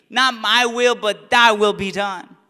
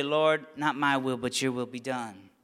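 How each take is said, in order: First: Louder, ringing declaration of surrender; proclaimed prayer. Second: Much softer and lower, reverent surrender; hushed prayer. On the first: Preacher proclaims Jesus' Gethsemane prayer, loud and ringing. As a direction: proclaim it boldly to the church. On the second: Preacher repeats Gethsemane prayer to the congregation, hushed and low. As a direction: breathe it gently as a quiet prayer. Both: Acted.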